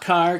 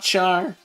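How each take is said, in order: First: It starts with a k sound, rhyming with far. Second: It starts with a ch sound, rhyming with car. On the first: "not car" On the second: "not char"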